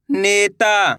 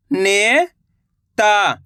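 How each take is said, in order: First: Said in the usual way. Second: नेता drawn out slowly, syllable by syllable; slow syllable split. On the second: Shown as a demonstration. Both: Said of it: "मैं किस तरीके से".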